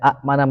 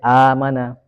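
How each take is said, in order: First: A glottal stop is heard in the word. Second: A long vowel replaces the glottal stop. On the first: "Huruf hamzahnya diganti"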